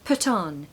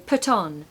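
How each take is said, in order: First: The two words are blended together. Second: The two words are blended together.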